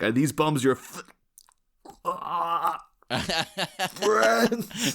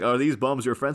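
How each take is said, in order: First: The voice breaks off before saying 'friends'. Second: The question is said smoothly without a break.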